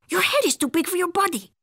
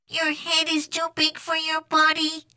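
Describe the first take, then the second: First: High, quick cartoon voice; exclaiming kitty boy. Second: High, level monotone; Martian echo. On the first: Skipito answering the Martian, exclaiming. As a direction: rattle it off with lively pitch. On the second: Martian copying Skipito's words, monotone echo. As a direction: repeat it evenly like an alien parrot. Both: A narrator's reading.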